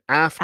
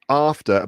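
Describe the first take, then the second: First: The first vowel is a short 'a' as in 'cat'. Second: The first vowel is a long 'ah' sound. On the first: This is the American way of saying it. "but you say after" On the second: This is the British way of saying it. "And I'd say after"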